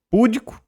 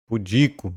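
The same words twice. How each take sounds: First: "púdico" stressed high on PÚ; "púdico" as PÚ-di-co, pitched high; wrong first-syllable stress. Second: "Pudico" stressed on DI, falling; "Pudico" as pu-DI-co, stated as the answer; correct middle-syllable stress. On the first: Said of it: "Essa tonicidade não recai aqui". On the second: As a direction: settle firmly on pu-DI-co for "Pudico". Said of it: "Mas recai aqui". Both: Shown as a demonstration.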